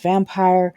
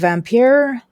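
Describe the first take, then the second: First: The word is said like the plain English word. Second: The word is said with a European-sounding pronunciation. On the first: "It's probably pronounced vampire" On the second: "that's how I'm pronouncing it"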